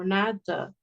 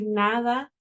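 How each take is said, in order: First: The unstressed vowel is reduced to a schwa. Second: Both vowels are clear Spanish 'a' sounds. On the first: The speaker calls it wrong. "dicen como nada" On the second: The speaker calls it right. "en lugar de decir nada"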